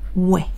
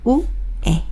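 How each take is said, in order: First: The vowels are blended quickly into one glide. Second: Two vowels are said slowly as separate sounds.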